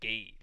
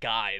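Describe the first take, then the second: First: The name rhymes with 'day'. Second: The name rhymes with 'eye'. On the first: This is how the show pronounces it. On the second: This is the usual English pronunciation. "they didn't even pronounce it like guy"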